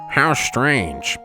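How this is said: It is said in a put-on silly voice.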